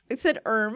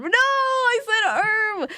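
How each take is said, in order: First: Said in the usual way. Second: "erm" stretched slowly, high, with a whiny wail; drawn-out erm. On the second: Shown as a demonstration. Streamer insisting to chat on "erm", whining it slow and high. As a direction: draw out "erm" long and high like a whimper.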